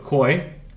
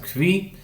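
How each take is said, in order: First: The word is said as one syllable, 'koy'. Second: The word is said with a 'v', 'kvee'.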